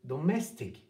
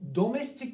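First: The stress falls on the second syllable. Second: The stress falls on the first syllable. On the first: The speaker calls it right. "Orada bir iniş var. Mes" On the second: The speaker calls it wrong. "Mesela şu anda ben de kötü söyledim"

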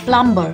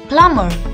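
First: A 'b' sound is heard in the middle of the word. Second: No 'b' sound is heard in the middle of the word. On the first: The speaker calls it wrong. "No, he is not a plumber" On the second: The speaker calls it right. "He is a plumber. Now this is because the letter B in this word remains silent"

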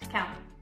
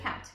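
First: The final T sound is dropped. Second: The final T sound is clearly pronounced. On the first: "without the T sound" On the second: "instead of count"

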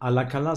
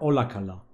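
First: The word begins with an 'a' sound. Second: The word begins with an 'o' sound. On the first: The speaker calls it wrong. "Nicht Alakala" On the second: The speaker calls it right. "sondern Olakala"

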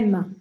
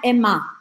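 First: The word ends on the consonant sound. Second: The word ends with an added vowel sound. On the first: The speaker calls it right. "é Emma" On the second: The speaker calls it wrong. "Não é um A, ... não é Emma"

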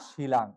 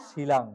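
Both takes have the same delivery.

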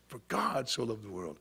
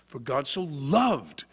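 First: The stress is on the word God. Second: The stress is on the word loved.

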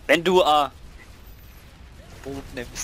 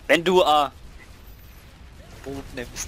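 First: The article is reduced to a short 'a'. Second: The same.

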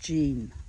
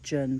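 First: The word is said without a New Zealand accent. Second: The word is said in a New Zealand accent. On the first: "My cleaning lady says it's jinn" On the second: "that's my New Zealand accent"

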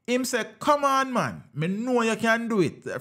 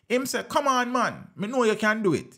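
First: The words are read at a slow speed. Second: The words are read at a normal speed.

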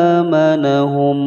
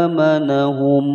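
No difference in how they are said.

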